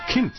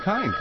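First: The name is said the German way, ending in t. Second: The name is said in the usual English way.

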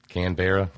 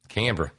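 First: The ending is said fully, rhyming with Berra. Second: The ending is reduced, not rhyming with Berra. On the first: The speaker calls it wrong. "cousin of Yogi Berra" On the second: The speaker calls it right.

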